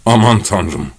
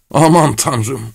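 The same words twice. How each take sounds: First: Subdued, mildly moaned exclamation; moaning. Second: Higher-pitched cry of despair; acted, hopeless outcry; desperate. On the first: Acted. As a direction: moan it in dismay. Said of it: "diye inledi". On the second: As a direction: exclaim it helplessly. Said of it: "sonra umutsuzca".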